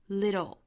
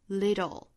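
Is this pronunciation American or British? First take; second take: American; American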